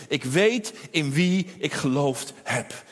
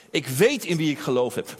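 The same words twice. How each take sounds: First: Slow, weighty "ik weet in wie ik geloofd heb", "weet" leaned on; deliberate drawn-out "weet"; slow solemn creed. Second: Said in the usual way. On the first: Acted. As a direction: lay each word down slowly like a vow. Preacher repeats Paul's creed.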